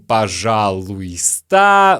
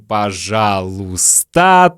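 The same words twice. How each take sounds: First: Every sound of the word is pronounced. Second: Some sounds are dropped from the word. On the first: This is how the word is written. "мы пишем пожалуйста" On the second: This is how people usually say it. "но говорим пожалуйста, то есть не произносим и краткое"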